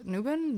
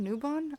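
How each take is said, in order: First: Newbon with a short, unstressed second vowel, NOO-bun; unsure pronunciation. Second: Newbon with a full open second vowel, NOO-bon; unsure pronunciation. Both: Shown as a demonstration. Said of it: "don't know how to properly say".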